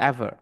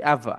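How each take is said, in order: First: Ever repeated as "eva", r left off; pronouncing ever. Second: Ever said as "eva", the final r dropped; pronouncing ever. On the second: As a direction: say ever the way people actually say it, "eva". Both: Shown as a demonstration. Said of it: "এর উচ্চারণটা ইয়া হয় না".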